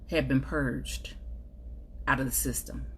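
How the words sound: The voice sounds calm and even.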